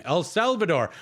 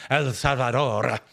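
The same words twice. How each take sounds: First: Said in the usual way. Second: "El Salvador" in a mocking Spanish accent, slow, R rolled; hammed-up Spanish accent on "El Salvador", slowly. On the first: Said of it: "try to start rolling R's". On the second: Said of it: "try to start rolling R's and say it in the accent".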